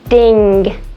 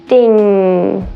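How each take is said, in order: First: A hard G is released at the end. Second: The ng is held long without a G. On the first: The speaker calls it wrong. "they produce that G sound so it sounds like this" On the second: The speaker calls it right. "holding it there and elongating that sound"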